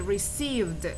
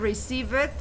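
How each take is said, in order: First: The ending is only a consonant sound. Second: The ending is said as an extra syllable. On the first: The speaker calls it right. "you say received" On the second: The speaker calls it wrong. "you don't say receive it"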